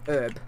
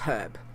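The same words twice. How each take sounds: First: The word begins without an h sound. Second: The word begins with a sounded h. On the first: The speaker calls it wrong. "not Herb" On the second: The speaker calls it right. "in Aussie land we say our H's, so it's Herb"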